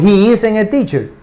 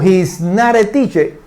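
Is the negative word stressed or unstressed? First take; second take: unstressed; stressed. First: The negation is contracted and unstressed. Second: The word not is stressed.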